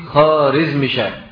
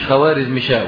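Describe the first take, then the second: First: No 'w' sound follows the first consonant. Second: A 'w' sound follows the first consonant. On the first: The speaker calls it right. "الواو دي ... لا تنطق" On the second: The speaker calls it wrong. "النطق الصحيح مش خوارزمشاه"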